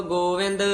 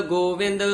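Both takes have the same delivery.

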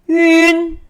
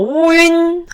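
First: It starts directly without an extra o sound. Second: It starts with an extra rounded o sound. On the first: The speaker calls it right. "네, 윈" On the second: The speaker calls it wrong. "오윈 하면 안 되죠"

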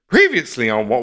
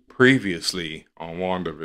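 First: It is said with overdone, exaggerated brightness. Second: It is said in a dampened, low-energy voice. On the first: "that's too much" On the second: "Dampens with every episode"

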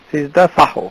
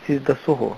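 First: The second word is said with an 'a' vowel. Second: The second word is said with 'u' vowels. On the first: The speaker calls it right. "যেহেতু এটি হা সুতরাং এটি হালকা করে উচ্চারণ করে সিজদা সাহ" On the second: The speaker calls it wrong. "অনেকে বলে সিজদা সুহু, সুহু নয়"

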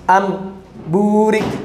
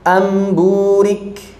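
First: It is said with a short break inside. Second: It is said smoothly with no break. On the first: The speaker calls it wrong. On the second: The speaker calls it right.

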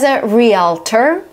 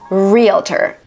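First: The word is said with three syllables, real-a-tor. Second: The word is said with two syllables, real-tor. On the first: The speaker calls it wrong. "Some people pronounce it as a realtor" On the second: The speaker calls it right. "but in American English it's realtor"

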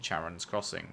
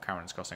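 First: The name begins with a 'ch' sound. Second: The name begins with a 'k' sound. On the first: "Ch or ka?" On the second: "Ch or ka?"

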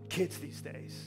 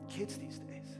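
First: The phrase is said in a dismissive, complaining tone. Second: The phrase is said in a warm, hopeful tone. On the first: Young people are seen as a problem. The speaker calls it wrong. "If your tone is, kids these days, you're already behind the eight ball" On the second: Young people are seen with hope. The speaker calls it right. "But if your tone is, man, kids these days, there's hope"

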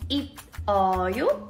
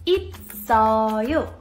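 First: The final consonant stays in the first syllable. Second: The s sound moves onto the next syllable. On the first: The speaker calls it wrong. "Did you say it like" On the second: The speaker calls it right. "It's actually pronounced as"

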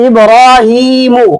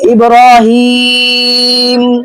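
First: The word ends with a final '-u' vowel. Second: The word stops on the final consonant 'm'. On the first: The reading continues without stopping. "এখানে আছে ইব্রাহিমু" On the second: The reader stops on this word. "আমি যখন অক্ষ করবো"

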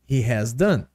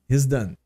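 First: He and has are said as two full words. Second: He and has merge into one short syllable. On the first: "Por exemplo" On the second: "contraindo tudo, juntando tudo, fica his"

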